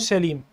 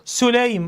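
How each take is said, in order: First: The first vowel is a, as in Salim. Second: The first vowel is u, as in Sulaym. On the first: The speaker calls it wrong. "مو" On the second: The speaker calls it right. "سليم مو سليم ... الفرق بالضمه"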